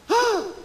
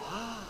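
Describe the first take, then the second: First: The shout is loud and high-pitched. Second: The shout is soft and restrained.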